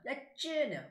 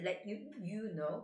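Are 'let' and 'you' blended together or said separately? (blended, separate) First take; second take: blended; separate. First: Let and you blend into a chu sound. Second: The words let and you are said separately. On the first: The speaker calls it right. "쭈쭈바처럼 let you know 이런 식으로 발음하면 좋아요" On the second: The speaker calls it wrong. "You don't say let you you know"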